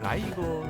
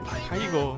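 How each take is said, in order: First: The word is slurred, sounding like it starts with l. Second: The word is said clearly, starting with t.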